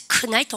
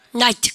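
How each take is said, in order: First: "큰 나이트" begun with an audible K; K sounded in knight. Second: Said in the usual way. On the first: Shown as a demonstration. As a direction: wrongly voice the silent K in "큰 나이트". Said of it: "혼나요". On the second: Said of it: "큰 나이트 혼나요".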